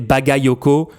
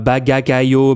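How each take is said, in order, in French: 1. Les syllabes du nom sortent dans l'ordre normal. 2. Les syllabes du nom sortent mélangées.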